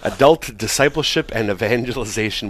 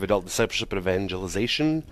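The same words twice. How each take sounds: First: It is said slowly. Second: It is said fast.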